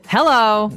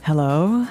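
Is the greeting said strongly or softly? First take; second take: strongly; softly. First: The greeting is said strongly and forcefully. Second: The greeting is said softly and gently.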